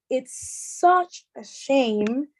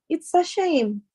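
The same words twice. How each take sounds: First: "such" held long for intensity; slow, heavily stretched "such"; emphasis on such. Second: Said in the usual way. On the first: Shown as a demonstration. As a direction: draw out "such", slowing the phrase. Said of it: "But if you say". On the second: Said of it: "you can say it like that".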